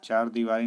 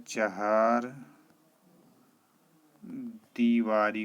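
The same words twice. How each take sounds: First: Quick, loud चार दीवारी with one-syllable "chaar"; wrong pronunciation. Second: चहार दीवारी split by a long pause; correct pronunciation. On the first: Teacher voices the common error, quick loud चार दीवारी. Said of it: "नहीं होता है". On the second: Teacher gives the right form, loud, spaced चहार दीवारी. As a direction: stretch चहार into "cha-haar", pause, then दीवारी. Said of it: "होता है". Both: Shown as a demonstration.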